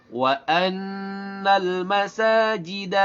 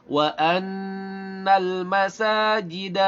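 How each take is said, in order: No difference in how they are said.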